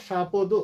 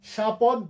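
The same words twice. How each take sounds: First: শাপদ as sha-po-do; final-vowel variant. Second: শাপদ as sha-pod, ending on d; final-consonant variant. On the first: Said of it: "দুটো উচ্চারণ বৈধ". (শাপদ, শেষে ও-ধ্বনি দিয়ে) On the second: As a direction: stop শাপদ on a bare d. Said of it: "দয় হস". (শাপদ, দ-এ হসন্ত দিয়ে) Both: Shown as a demonstration.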